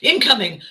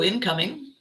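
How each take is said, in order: First: It is said in an alarmed, panicked way. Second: It is said in a calm, unbothered way. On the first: The person panics and wants to flee. "as opposed to incoming, no, move" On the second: The person adapts and keeps going. "how we adapt, how we say, ooh, incoming, and carry on"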